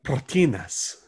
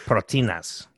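First: Proteínas with a trilled Spanish r; proteínas, roll the r hard. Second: Proteínas said the Spanish way, pro-teh-EE-nahs; proteínas with a Spanish accent; Spanish pronunciation. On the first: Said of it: "You rolled the R". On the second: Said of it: "You gotta roll that N". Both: Shown as a demonstration.

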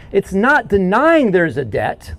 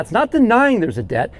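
First: "denying" drawn out slowly and stressed; slow every word down, lean on "denying"; slow emphatic. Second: Higher, with "denying" rising; raised repeat. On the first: Preacher driving the point home to church, slow and weighted. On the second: Preacher repeating the point to the church, higher and rising. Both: Shown as a demonstration. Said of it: "Hear that?".

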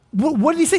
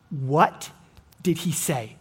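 First: "What, what did he say" pushed up higher, pressing the question; emphatic question. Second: "what did he say" asked softly and low, to himself; quiet musing. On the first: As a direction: repeat "what did he say" higher, demanding the answer. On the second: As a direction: ponder "what did he say" under the breath. Pondering the question aloud. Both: Shown as a demonstration.

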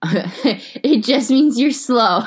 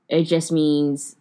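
First: Slow, laughing punchline. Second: Said in the usual way. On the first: Real, not acted. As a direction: drag it out through a laugh. Joke punchline said slowly.

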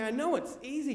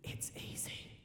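First: High-pitched protest, leaning on KNOW; exasperated, raised-pitch reply. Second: Hushed, coaxing whisper; very soft, voiceless whisper. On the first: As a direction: push back at dad in full voice. Protesting to dad's whispered urging. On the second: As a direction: whisper it right into an ear. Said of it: "Dad just whispers in my ear". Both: Retold or imitated.

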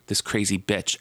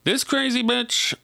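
First: Said in the usual way. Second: High, playful sassy delivery; sassy campy bitch. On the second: Retold or imitated. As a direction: sing it out high and teasing. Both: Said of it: "let's pretend I'm saying it like that".

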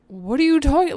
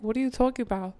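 First: Loud, high retold outburst of disbelief; exasperated protest. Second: Retold confused question, slightly raised; puzzled protest. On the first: Girlfriend answering his repeated demand, loud baffled protest. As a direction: throw the question back, much louder and higher. Acted louder reply to repeated ultimatum. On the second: Girlfriend answering the boyfriend's ultimatum, mildly puzzled protest. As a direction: act out mild bafflement.

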